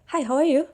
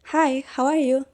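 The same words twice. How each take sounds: First: The phrase is said at a faster pace. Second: The phrase is said at a slower pace. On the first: This is how native speakers say it. "orang itu lebih cepat dikit" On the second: This is how Indonesian speakers say it. "kalau kita ngucapin kayak"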